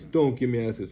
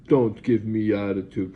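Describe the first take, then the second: First: Higher, loud repeat of the scolding; stern scold. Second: Slow, loud, stern warning; stern scold. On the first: Nurse repeating the scolding, higher and loud. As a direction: snap it out at the patient again. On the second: Nurse scolding patient, slow loud warning. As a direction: bark it out slowly like a scolding nurse. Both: Retold or imitated. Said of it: "pointing his finger at my face".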